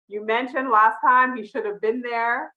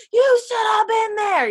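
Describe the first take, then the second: First: Said in the usual way. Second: Much higher and louder shout; yelling at TV. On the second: Retold or imitated. Fan yelling at Nathan on her TV, shouting. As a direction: yell it at the screen. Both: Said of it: "I'm just yelling at my T V".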